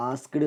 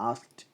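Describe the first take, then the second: First: "ആസ്ക്ഡ്" ending in a voiced -du; wrong ending. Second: "ആസ്ക്ഡ്" ending in a crisp voiceless t; correct t ending. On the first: Teacher shows learners the mistake, "ആസ്ക്ഡ്" with voiced -du. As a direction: add a short vowel after the d in "ആസ്ക്ഡ്". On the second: Teacher corrects learners, "ആസ്ക്ഡ്" with a t ending. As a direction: say "ആസ്ക്ഡ്" as askt, no final vowel. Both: Shown as a demonstration. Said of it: "ആസ്ക്ഡ് എന്നല്ല".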